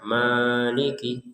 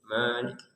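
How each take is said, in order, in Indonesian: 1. Vokal panjang ditahan lebih dari dua ketukan. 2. Vokal panjang ditahan selama dua ketukan. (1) "Jadi jangan maliki" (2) "Jadi tetap dua harokat saja"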